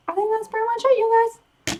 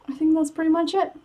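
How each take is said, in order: First: High sing-song voice. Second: Said in the usual way. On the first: Real, not acted. Repeats it, higher.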